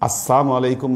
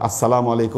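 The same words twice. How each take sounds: First: The 'l' sound is dropped, giving 'assamu'. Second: The 'l' sound is clearly pronounced in 'salamu'. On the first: May poison rain down upon you. The speaker calls it wrong. "লামটা যদি সঠিকভাবে উচ্চারণ না করেন, সালামের সাম হয়ে যায়" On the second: May peace rain down upon you. The speaker calls it right. "মানে আপনার উপরে শান্তি বর্ষিত হোক"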